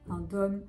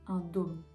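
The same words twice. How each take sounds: First: The o vowel is said rather open. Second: The o vowel is said very closed. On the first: "donc plutôt ouvert" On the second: "devrait être prononcé très fermé"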